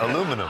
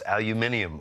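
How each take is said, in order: First: The word is said the American way. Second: The word is said the British way. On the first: This is how the speaker naturally says it. "How do you say it?" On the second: This is the version others want used. "it's aluminium, but that's not how I say it"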